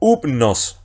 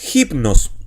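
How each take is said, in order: First: The word starts directly with the vowel. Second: The word starts with a breathy h sound. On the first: The speaker calls it wrong. "y no upnos" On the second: The speaker calls it right. "leo hipnos"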